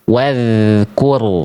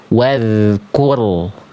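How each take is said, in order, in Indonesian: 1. Bunyi dh ringan dan mengalir. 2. Bunyi dh ringan dan mengalir.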